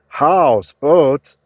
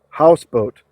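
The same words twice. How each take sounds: First: Both parts of the word are stressed. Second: Only one part of the word is stressed. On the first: It is treated as two separate words. The speaker calls it wrong. "We don't say houseboat" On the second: It is treated as a single new word. The speaker calls it right. "we say houseboat ... we've lost one of the accents"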